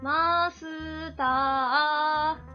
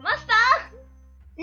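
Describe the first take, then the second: First: It is said at a quiet, normal volume. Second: It is said in a loud voice.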